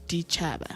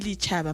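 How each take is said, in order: First: The word begins with a D sound. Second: The word begins with an L sound. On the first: This is how the word is actually spoken. "but when you pronounce it, it's dichaba" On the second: This is how the word is written. "Hawe bala ki lichaba"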